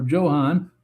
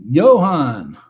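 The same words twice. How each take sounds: First: "Johan" starting with a hard English J, like "Joe"; "Johan" with J sound. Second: "Johan" starting with a Y, like "yo", loud; "Johan" with Y sound. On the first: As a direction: say "Johan" as JO-hahn. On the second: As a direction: say "Johan" as YO-hahn. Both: Shown as a demonstration. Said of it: "how to pronounce that name".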